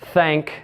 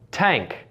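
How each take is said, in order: First: The word begins with a th sound. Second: The word begins with a t sound. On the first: "with the th sound" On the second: "more of a dentalized t"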